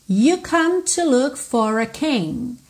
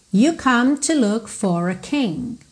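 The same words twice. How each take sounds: First: Sung lyric. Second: Said in the usual way. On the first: Shown as a demonstration.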